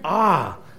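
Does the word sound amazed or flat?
amazed. The word is said with amazement and wonder. The speaker calls it right. "but awe, in amazement, in wonder"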